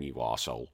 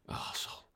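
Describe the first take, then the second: First: Said in the usual way. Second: Whispered insult, repeated under breath. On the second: Acted. Host whispers the insult again at a listener.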